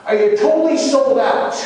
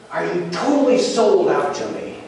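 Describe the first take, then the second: First: High-pitched, intense, pressing question; voice risen high. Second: Raised, earnest question at moderate intensity; first searching question. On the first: Jesus demanding Peter's total devotion, high and intense. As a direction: ask it urgently at the top of the build. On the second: Jesus questioning Peter's devotion, earnest and slightly raised. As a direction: ask it pointedly, pitch somewhat up. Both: Retold or imitated. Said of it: "his voice rose each time he asked him".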